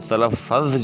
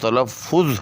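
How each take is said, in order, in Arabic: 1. يأتي بعد الـF المضعّف صائت 'a'. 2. يأتي بعد الـF المضعّف صائت 'u'. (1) "जो हम आम तौर पे बोलते हैं, ये गलत है" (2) "दुरुस्त तलफ़्फ़ुज़ जो है वो तलफ़्फ़ुज़ है"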